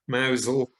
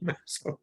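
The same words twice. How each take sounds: First: The name is said in its local form. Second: The name is said as it is spelled. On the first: The speaker calls it right. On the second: The speaker calls it wrong.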